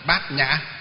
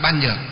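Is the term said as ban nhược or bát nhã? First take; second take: bát nhã; ban nhược. First: The term is said as bát nhã. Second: The term is said as ban nhược. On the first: The speaker calls it right. "mà phải phiên âm là gì? Đọc là gì? Bát nhã" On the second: The speaker calls it wrong. "Khi mà chúng ta đọc là ban nhược á thì là không phải"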